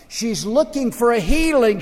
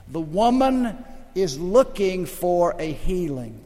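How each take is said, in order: First: She's looking for a healing, said higher and louder with a hard fall on healing; preached emphasis. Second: Said in the usual way. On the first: Shown as a demonstration. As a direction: lift and punch healing.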